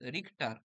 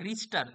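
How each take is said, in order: First: A 'k' sound comes before the 't'. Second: An 's' sound comes before the 't'. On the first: "আসল উচ্চারণ আসলে হচ্ছে রিক্টার" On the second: "রিস্টারও লিখতে পারো"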